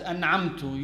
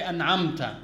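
First: "an'amtu" slipping to an u at the end; accidental damma ending. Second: "an'amta" put right with an a at the end; corrected fatha ending. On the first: Worshipper slipping while praying, damma ending. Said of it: "It came out as". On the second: Worshipper quickly correcting the slip in prayer, fatha ending. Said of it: "You correct yourself". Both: Shown as a demonstration.

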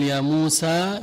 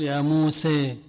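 First: موسى ending in an open a; plain a. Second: موسى ending muse, leaning to e; imala. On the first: Teacher gives the standard ending, open vowel. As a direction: end موسى on a clear a. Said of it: "بدل أن يقول". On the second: Teacher shows the imala ending, vowel leaning to e. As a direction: end موسى with the a bent to e. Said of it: "هذا أيضًا بالإمالة". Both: Shown as a demonstration.

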